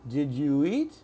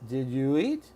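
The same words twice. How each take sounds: The two takes are said the same way.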